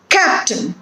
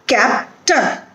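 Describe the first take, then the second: First: "Captain" joined up, CAP stressed, falling; stress on first syllable. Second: "Captain" split as CAP, pause, TUN; syllable by syllable. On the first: Teacher showing the stressed syllable, "Captain" whole with CAP stressed. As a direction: say "Captain" as one word, leaning on CAP. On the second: Teacher breaking down an example, "Captain" in two separated syllables. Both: Shown as a demonstration. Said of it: "stress on the first syllable".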